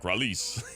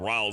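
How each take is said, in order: First: The name is said with Spanish-style sounds. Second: The name is said with plain English sounds. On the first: "you could be from Spain. ... it'd be like Ralease" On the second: "Instead of Rawls"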